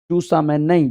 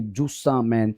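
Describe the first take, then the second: First: Said in the usual way. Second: जूसा मैन said much lower and much softer, drawn out; said lovingly. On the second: Shown as a demonstration. Teacher to students, cooing जूसा मैन lovingly. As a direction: coo जूसा मैन tenderly like to a child. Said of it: "प्यार से बोलेंगे जूसा मैन".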